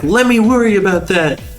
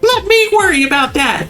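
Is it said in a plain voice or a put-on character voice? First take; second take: plain voice; character voice. First: It is said in a plain own voice. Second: It is said in a put-on Chie voice.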